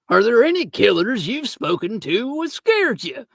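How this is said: It is read in a put-on pirate voice.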